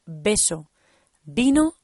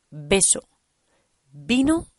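Both takes have the same delivery.

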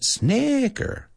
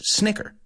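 First: The first vowel is drawn out long. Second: The first vowel is short and quick. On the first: The speaker calls it wrong. "No es snicker" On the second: The speaker calls it right. "Es snicker"

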